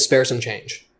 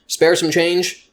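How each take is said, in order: First: Said in the usual way. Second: Slow, drawn-out spare some change; quoting the setup slowly; slowed setup line. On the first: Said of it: "the top fucking thing they would say is". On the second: Shown as a demonstration. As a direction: lay out "Spare some change" slowly, each word apart. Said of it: "that was the starting point".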